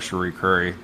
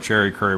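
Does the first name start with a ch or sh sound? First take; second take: sh; ch. First: The first name begins with an sh sound. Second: The first name begins with a ch sound. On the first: The speaker calls it right. "we'll call her [name]" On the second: The speaker calls it wrong. "I still want to call her Cherry Curry"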